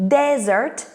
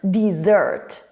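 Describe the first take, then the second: First: DESERT with DES strong, rising; stress on first syllable. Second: DESSERT with SERT strong, falling; stress on second syllable. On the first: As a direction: hit the first syllable of "Desert", DEZ-ert. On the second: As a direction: hit the second syllable of "dessert", dih-ZERT. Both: Shown as a demonstration. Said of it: "first syllable and second syllable".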